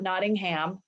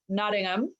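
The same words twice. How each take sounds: First: It is said with an American pronunciation. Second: It is said with a British pronunciation. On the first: The speaker calls it wrong. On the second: The speaker calls it right. "I'm going to pronounce this right because I have a British husband"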